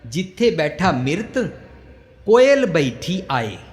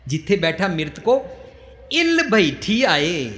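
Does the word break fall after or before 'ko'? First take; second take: before; after. First: 'Ko' is joined to the following 'il'. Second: 'Ko' is joined to the preceding 'mrit'. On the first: A cuckoo sits on the corpse. The speaker calls it wrong. "पर जुड़े हो ना अखर, असी उसका उच्चारण करिए" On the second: A kite sits on the corpse. The speaker calls it right. "समझना पड़ेगा कि विश्राम कित्थे दें"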